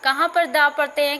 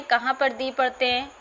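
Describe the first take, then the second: First: दा pronounced with an open "aa"; article said "daa". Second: दी pronounced with a long "ee"; article said "dee". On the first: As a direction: sound the article as दा, rhyming with "spa". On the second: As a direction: sound the article as दी, rhyming with "see". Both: Shown as a demonstration.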